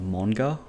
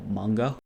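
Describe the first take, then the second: First: The word is said with Japanese vowels and sounds. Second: The word is said with English vowels and sounds.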